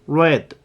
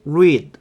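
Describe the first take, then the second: First: The word is said with a short 'e' vowel. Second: The word is said with a long 'ee' vowel. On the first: It is the past tense or past participle. "과거형하고 과거분사는 read 이렇게 읽어요" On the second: It is the base form of the verb. "맨 앞에 동사 원형 쟤만 read 이렇게 읽고요"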